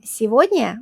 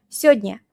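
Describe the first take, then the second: First: Сегодня said in full, se-vod-nya; the careful full form сегодня. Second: Сегодня squeezed to sod-nya; the clipped spoken сегодня; short сегодня. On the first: Teacher sets the full сегодня against the short form. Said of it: "instead of saying сегодня". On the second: Teacher shows how people really say сегодня. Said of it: "we say сегодня". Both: Shown as a demonstration.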